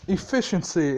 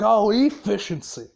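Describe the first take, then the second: First: Said in the usual way. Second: Sarcastically throwing the word back; mock incredulous echo. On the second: Boss echoing the Pox's excuse back, mock incredulous. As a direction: repeat it as if it's an absurd excuse.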